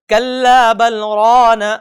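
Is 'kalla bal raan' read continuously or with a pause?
continuous. It runs on without a pause. The speaker calls it wrong. "ये तरीका भी गलत है।"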